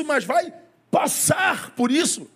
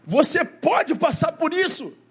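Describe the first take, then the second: First: Slow, drawn-out stress on "passar" in "vai passar por isso". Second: Slow, weighty stress on "pode" in "Você pode passar por isso". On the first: Pastor slowly stressing "passar" to reassure the sick. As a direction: land hard on "passar", said slowly, to show the verb passar. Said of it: "mas tem o verbo passar". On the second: Pastor slowly stressing "pode" to a cancer-stricken congregation. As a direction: lean on "pode", said slowly, to stress the verb poder. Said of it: "Eu tô falando do verbo poder". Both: Shown as a demonstration.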